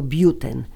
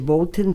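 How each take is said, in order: First: The name is said without an 'l' sound. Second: The name is said with an 'l' sound. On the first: The speaker calls it right. "tylko Buten" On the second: The speaker calls it wrong. "nie wymawia się Bolten"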